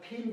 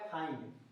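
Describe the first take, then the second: First: The vowel is a short 'i' sound. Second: The vowel is a long 'eye' sound. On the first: The speaker calls it wrong. "ऐसे नहीं पढ़ सकते हैं" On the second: The speaker calls it right. "अक्सर आई ही पढ़ेंगे उसको"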